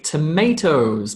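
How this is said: It is said with an American accent. "if you're an American, you would say tomatoes"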